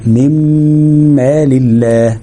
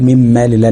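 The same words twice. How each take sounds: First: Slow من مال الله, long hummed m in the middle; held ghunna. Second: من مال الله quickly merged, ghunna skipped; straight through. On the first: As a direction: hold the merged m of من مال before going on. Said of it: "ده الغنة بتاعتها". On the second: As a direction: say من مال الله with a short m, no held hum. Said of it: "مش هقول على طول". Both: Shown as a demonstration.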